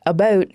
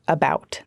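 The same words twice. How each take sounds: First: Canadian "about", close to "aboot"; Canadian accent. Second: Said in the usual way. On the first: Shown as a demonstration. Reporter showing the Canadian accent in "about", raised vowel. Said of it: "influence of the Canadian accent". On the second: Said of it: "instead of about".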